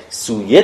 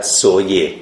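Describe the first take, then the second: First: سویه pronounced "suye", with oo; "soo-ye" for سویه; long u pronunciation. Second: سویه pronounced "soye", with a short o; slow, falling "so-ye" for سویه; o pronunciation. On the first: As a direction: say سویه with a long u in the first syllable. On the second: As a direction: say سویه with o in the first syllable. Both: Shown as a demonstration. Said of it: "کجا باید سویه تلفظ کنن".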